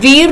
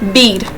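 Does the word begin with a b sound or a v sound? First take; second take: v sound; b sound. First: The word begins with a v sound. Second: The word begins with a b sound.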